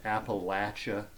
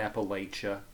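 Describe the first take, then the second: First: The middle syllable sounds like 'latch'. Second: The middle syllable does not sound like 'latch'. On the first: The local way of saying it. The speaker calls it right. "it is pronounced Appalachia ... It's Latch" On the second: An outsider's way of saying it. The speaker calls it wrong. "not Appalachia"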